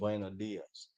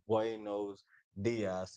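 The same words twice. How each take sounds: First: It is said quickly and fluently. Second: It is said slowly and carefully.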